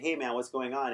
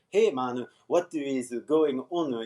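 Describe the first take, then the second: First: It sounds like relaxed native English. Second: It sounds like Japanese katakana-style English. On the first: The speaker calls it right. "If I say" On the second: The speaker calls it wrong. "You're just like translating into katakana English"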